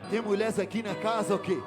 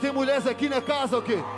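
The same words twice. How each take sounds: First: The phrase is said more quietly. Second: The phrase is said at normal loudness.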